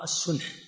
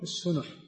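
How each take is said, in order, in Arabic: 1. لا تأتي بعد النون أي حركة. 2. تأتي بعد النون حركة ضمة. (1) "وعلى القول الآخر السنح" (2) "بضم النون السنح هذا عند أبي عبيد"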